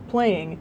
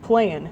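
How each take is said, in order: First: The ending is said with an 'ng' sound. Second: The ending is said with an 'n' sound. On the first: The speech is careful and conservative. "women say ing in verbs like playing" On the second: The speech is less careful. "Men say n, as in playin'"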